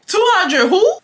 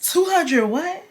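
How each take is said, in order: First: Very high, rising question; comically outraged high double take; exaggerated disbelief. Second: Slow, high, rising question; stunned, high-pitched double take; incredulous. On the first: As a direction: squeal the question, voice shooting up. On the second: Acted. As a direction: draw out the question in disbelief. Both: Incredulous reaction to money request.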